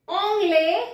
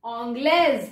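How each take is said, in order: First: "anglais" with an open e, silent s; "anglais" ending open; masculine "anglais". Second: "anglaise" ending in a z sound; feminine "anglaise". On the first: ("anglais" बिना ज़ के) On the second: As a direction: close "anglaise" on the z. ("anglaise" के अंत में ज़) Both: Shown as a demonstration. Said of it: "extra ई".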